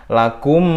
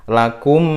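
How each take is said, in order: No difference in how they are said.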